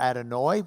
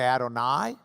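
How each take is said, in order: First: The word ends with an 'oy' sound. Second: The word ends with an 'eye' sound. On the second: "You can add I"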